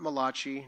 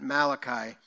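First: The name is said with an Italian-like sound. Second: The name is said with a plain English sound. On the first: The speaker calls it wrong. "not Malachi, not an Italian" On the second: The speaker calls it right. "but Malachi there at the end"

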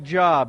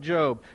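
First: The vowel is short, as in 'job'. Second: The vowel is long, as in 'robe'. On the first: This is how the word looks in writing. The speaker calls it wrong. "it's spelled like Job" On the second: This is how the name is actually spoken. The speaker calls it right. "but we pronounce it Job"

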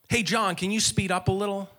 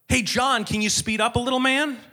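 First: It is said at normal volume. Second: It is said more loudly.

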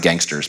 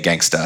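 First: The word ends in an 'er' sound. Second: The word ends in an open 'ah' sound. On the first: The speaker calls it wrong. "It's not Gangster's Paradise" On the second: The speaker calls it right. "You have to say it with the A"

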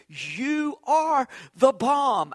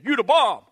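First: The word 'are' is pronounced in full. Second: The word 'are' is dropped entirely. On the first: "Actually, they don't say it that way" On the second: "They say"

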